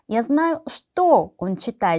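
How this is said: The word что is given strong emphasis. The focus is on what he is reading. "여기서 что 를 강조했을 때는"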